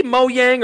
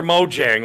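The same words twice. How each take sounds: First: "Mojang" said as MO-YANG. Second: "Mojang" said as MO-JANG; Mojang with hard J. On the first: Asking the co-host which way to say it, Mojang with a Y. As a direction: say "Mojang" with a y sound in place of the j. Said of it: "how are we saying it". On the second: Offering the co-host the other way, Mojang with a hard J. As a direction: say "Mojang" with an English j, as in jam. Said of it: "do you say Mojang or Mojang". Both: Shown as a demonstration.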